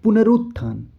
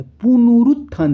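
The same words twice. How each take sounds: First: पुनरुत्थान with a short उ after न, falling; correct form. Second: पुनरुत्थान said as पुनूरुत्थान, long ऊ on न; mock the wrong पुनरुत्थान with ऊ after न; wrong form. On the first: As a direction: say पुनरुत्थान as पुन-रुत्थान, short u. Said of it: "जबकि होगा क्या". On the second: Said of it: "न में ऊ की मात्रा दे दिया". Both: Shown as a demonstration.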